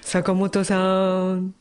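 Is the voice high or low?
low. It is said in a low voice.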